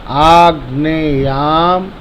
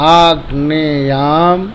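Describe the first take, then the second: No difference in how they are said.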